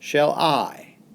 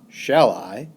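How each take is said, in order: First: The stress falls on the word I. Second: The stress falls on the word shall.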